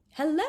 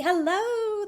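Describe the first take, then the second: First: Bright high friendly hello; Charlotta's hello. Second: Much higher sing-song doll hello; doll family's hello. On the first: Girl greeting the doll family, lightly voiced. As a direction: greet the dolls a little higher. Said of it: "she said to the doll family". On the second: Dolls greeting the girl, high doll voice. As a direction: answer in a tiny high doll voice. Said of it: "the doll family said". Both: Acted.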